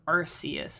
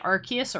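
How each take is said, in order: First: The c is pronounced like an s. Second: The c is pronounced like a k. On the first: "a soft c" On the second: "a hard k c"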